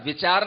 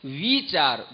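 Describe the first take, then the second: First: The first vowel is short. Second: The first vowel is long. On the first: The speaker calls it wrong. "विचार नहीं" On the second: The speaker calls it right. "दीर्घ ई बोलना भी सीखो"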